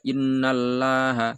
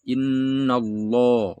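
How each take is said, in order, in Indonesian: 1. Huruf L pada Allah itu tipis dan ringan. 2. Huruf L pada Allah itu tebal dan berat. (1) "enggak boleh dibaca innallaha, salah" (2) "harus innallah, lo, ya, tebal"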